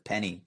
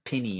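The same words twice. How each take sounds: First: It is said with a general American pronunciation. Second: It is said with a Southern American pronunciation. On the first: "instead of penny" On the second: "If you're from like the South ... you might say something like penny"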